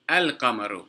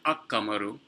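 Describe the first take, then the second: First: The L sound is clearly pronounced before the Q. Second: The L sound merges into the following Q sound. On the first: The speaker calls it right. "not ak-qamaru" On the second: The speaker calls it wrong. "not ak-qamaru"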